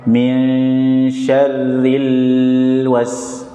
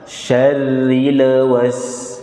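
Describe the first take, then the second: First: Min syarril was very slow with the l held; held wrong. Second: Syarril was slow, l released at once; don't hold the l in Syarril; direct l. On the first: Teacher showing wrong held syarril. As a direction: hold the l in syarril. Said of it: "Misalkan yang salah". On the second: Teacher modelling clean Syarril was. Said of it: "Tapi langsung syarril". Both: Shown as a demonstration.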